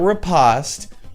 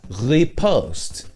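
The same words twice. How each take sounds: First: The word is pronounced an English way. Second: The word is pronounced the French way. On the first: The speaker calls it wrong. "It's not riposte. You sound like an idiot when you say it that way" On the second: The speaker calls it right. "It's a French word. It's riposte"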